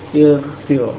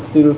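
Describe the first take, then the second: First: The word begins with an i vowel. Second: The word begins with a u vowel. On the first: The speaker calls it right. "harokat hamzahnya menyesuaikan dengan harokat ain kalimahnya" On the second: The speaker calls it wrong. "bukan ... ughsil"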